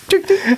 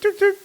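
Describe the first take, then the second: First: Laughing high tuk-tuk honk; horn imitation. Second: High beep-beep like a tuk-tuk horn; horn imitation. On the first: Refusing then honking anyway for the co-host, laughing high honk. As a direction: squeeze out the horn through a laugh. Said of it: "Because you asked me to do it". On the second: To his co-host, mimicking a tuk-tuk horn, high honk. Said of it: "Could you do that again?".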